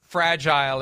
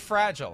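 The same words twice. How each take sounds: First: The word is said with a British pronunciation. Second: The word is said with an American pronunciation. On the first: This is how people from where the language began say it. "Fragile is the way they say it" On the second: This is the ordinary local way to say it. "I think it's just fragile"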